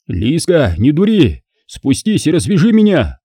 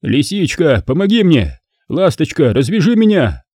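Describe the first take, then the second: First: Tied-up man mildly yelling up at his lover; suddenly yelling. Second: Coaxing plea, only slightly louder; loudly coaxing. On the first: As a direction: call up at her, lightly hammed-up. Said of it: "вдруг завопил Кир". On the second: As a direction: sweet-talk her down, lightly voiced. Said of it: "и громко продолжил". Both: Acted.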